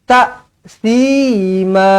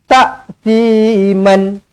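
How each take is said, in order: First: The word ends with a long vowel. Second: The word ends with an N sound. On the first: The speaker calls it right. "Nak berhenti. ... Ma-nya dua harakat" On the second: The speaker calls it wrong. "Tak boleh berhenti macam tu"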